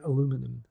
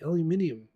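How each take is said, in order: First: It is said with an American pronunciation. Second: It is said with a British pronunciation. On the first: "as Americans would say" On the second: "as we say"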